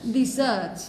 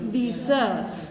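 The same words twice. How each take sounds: First: The stress is on the second syllable. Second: The stress is on the second syllable.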